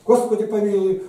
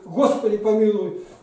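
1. Молитву произносят сильно, властно. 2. Молитву произносят сильно, властно.

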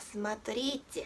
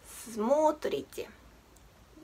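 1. アクセントは二番目の音節にあります。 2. アクセントは最初の音節にあります。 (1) "見た目上は同じ綴りですけれどもアクセントの位置が違います" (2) "現在時制の変化をした時にV の時の変化はスモートリーチェ"

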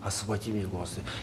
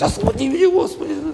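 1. Фраза произносится тихо, как мольба. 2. Фраза кричится громко. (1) "Молись, проси" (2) "Ну разве можно, Господи, кричать"

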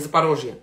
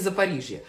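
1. Название произносится на русский лад. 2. Название произносится на украинский лад. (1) "а не Запорожье" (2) "а на украинский Запорожье"

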